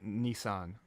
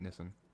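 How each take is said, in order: First: It is said the American way, near Japanese. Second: It is said the Australian way. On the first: "that's technically the actual pronunciation" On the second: "that's how Australians pronounce it"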